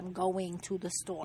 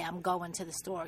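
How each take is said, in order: First: The -ing of going is fully pronounced. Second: The -ing of going is cut off. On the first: The speaker calls it right. "You have to say, ... all your ings have to be pronounced" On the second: The speaker calls it wrong. "You can't say"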